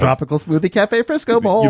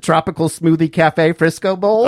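First: It is said in a jaunty, lively way. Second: It is said in a plain, neutral way.

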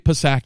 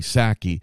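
First: The initial P is pronounced. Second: The initial P is silent. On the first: The speaker calls it wrong. "you don't say Psaki" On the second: The speaker calls it right. "you say Psaki"

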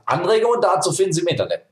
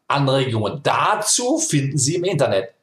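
First: The demonstrative 'dazu' is left unstressed. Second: The demonstrative 'dazu' carries strong stress.

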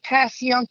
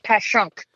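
First: The second syllable sounds like 'young'. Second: The second syllable sounds like 'shunk'. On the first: This is the reading the spelling suggests. "instead of saying Pass Young" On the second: This is how locals actually say it. "you say Pass Shunk"

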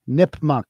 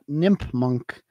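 First: The name ends with a plain 'muck' sound. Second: The name ends with an added 'n', like 'munk'. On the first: The speaker calls it right. "Nipmuc Regional High School" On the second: The speaker calls it wrong. "Not Nipmunk"

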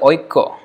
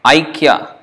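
First: The first vowel is the diphthong 'oi'. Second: The first vowel is the diphthong 'ai'. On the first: This is the Bengali pronunciation. "But then in Bengali they say Oikko" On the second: This is the Sanskrit pronunciation. "Like Aikya in Sanskrit"

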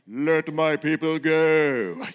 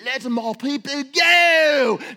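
First: It is said in a deep, low voice. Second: It is said in a put-on accent. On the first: "Should I use a deep voice" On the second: "should I use an accent?"

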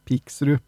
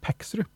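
First: The first vowel sounds like 'i'. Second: The first vowel sounds like 'e'. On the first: This follows the written spelling. "det skrives jo P-I-K-S, altså Piksrud" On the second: This is the local dialect pronunciation. "det er jo uttala på odøling, det er Peksrud"

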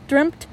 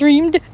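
First: The word ends with a voiceless t sound. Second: The word ends with a voiced d sound. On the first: The speaker calls it right. "I meant dreamt" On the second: The speaker calls it wrong. "Have I been saying it wrong?"

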